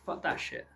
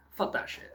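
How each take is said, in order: First: A hushed, dismissive aside; whispered curse. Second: A hushed, throwaway repeat; whispered curse again. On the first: Vlogger tells viewers, under his breath, whispered dismissal. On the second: Vlogger repeats the dismissal to viewers, in a whisper. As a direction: whisper the curse once more. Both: Real, not acted.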